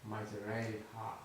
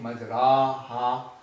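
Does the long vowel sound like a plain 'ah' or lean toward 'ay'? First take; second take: ay; ah. First: The long vowel leans toward an 'ay' sound. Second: The long vowel is a plain open 'ah'. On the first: The speaker calls it right. "twist your voice in pronouncing the alif and incline the alif towards the letter ya" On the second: The speaker calls it wrong. "you are not saying majraha"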